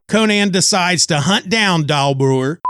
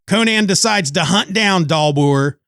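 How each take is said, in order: The two takes are said the same way.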